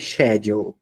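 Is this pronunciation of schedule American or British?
British. It is said with the British pronunciation.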